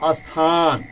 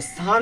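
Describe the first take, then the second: First: An extra vowel sound comes before the s. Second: The word begins directly with the s sound. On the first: The speaker calls it wrong. "बच्चे बोल देते हैं स्थान" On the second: The speaker calls it right. "स्थान लिखा हुआ है"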